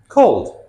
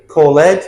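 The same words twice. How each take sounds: First: "called" as one syllable ending in a voiced d. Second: "call ed" split into call-ED; wrong extra syllable. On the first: Teacher models the D ending, "called" in one syllable. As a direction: say "called" with just a d on the end. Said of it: "Notice the D sound at the end". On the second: Teacher shows the mistake, "call ed" as two syllables. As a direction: stress a separate "ed" after "call ed". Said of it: "We never say". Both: Shown as a demonstration.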